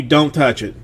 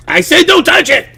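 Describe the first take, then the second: First: Said in the usual way. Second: Very high, loud panicked yell; frantic warning. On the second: Retold or imitated. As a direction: screech it as an acted last warning. Retold escalated warning to child.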